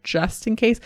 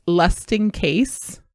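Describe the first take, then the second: First: Said in the usual way. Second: "lust in case", an L in place of J; child's mispronunciation. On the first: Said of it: "instead of". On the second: Retold or imitated. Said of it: "Corey says".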